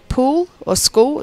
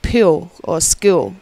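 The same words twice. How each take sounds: First: "pool" and "school" with a plain oo, slow; Queensland pool, school. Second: "pool" and "school" slowly, oo turned to pee-ool; New South Wales vowels. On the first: Guest showing own state's vowels, oo in "pool" and "school". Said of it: "like, we say". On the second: Guest showing the other state's vowels, "pool" as pyool, "school" as skyool. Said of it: "and they'll say". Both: Shown as a demonstration.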